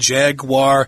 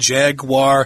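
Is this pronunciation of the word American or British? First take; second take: American; American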